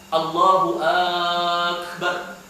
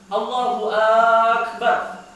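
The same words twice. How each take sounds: First: The first vowel of Akbar is drawn out. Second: The first vowel of Allahu is drawn out. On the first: "dia panjangkan alif di akbarnya" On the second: "dia panjangkan A-nya"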